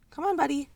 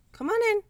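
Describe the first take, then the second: First: Higher coaxing pet voice; calling a cat. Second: Very high sing-song pet call; calling a cat. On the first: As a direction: coax the cat in gently. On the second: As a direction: squeak it up high to lure the cat. Coaxing the cat. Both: Real, not acted.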